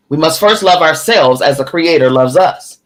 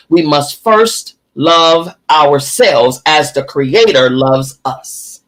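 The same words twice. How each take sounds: First: Said in the usual way. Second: Slow and weighty, word by word; slow, emphatic reading. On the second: Shown as a demonstration. Teacher reading how to love ourselves, slow and emphatic. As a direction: space out each phrase so it sinks in. Book line read emphatically, then repeated.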